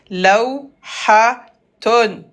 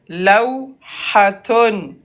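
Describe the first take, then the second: Both takes have the same delivery.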